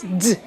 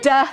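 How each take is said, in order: First: The consonant is clipped with no vowel after. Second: The consonant is followed by an 'uh' vowel. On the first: The speaker calls it right. "You kind of sh cut that uh sound off" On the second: The speaker calls it wrong. "instead of going duh"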